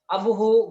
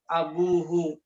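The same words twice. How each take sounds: First: The vowel after the b is short. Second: The vowel after the b is long. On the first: The speaker calls it wrong. "Bukan abuhu, bukan gitu" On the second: The speaker calls it right. "ada ditambah wawu"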